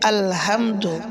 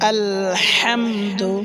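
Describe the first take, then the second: First: The h is a light, plain breath sound. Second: The h is pressed from deep in the throat. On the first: The speaker calls it wrong. "ছোট হা দিয়ে" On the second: The speaker calls it right. "গলার ভিতরে হালকা চাপ দিয়ে তারপরে বলতে হবে"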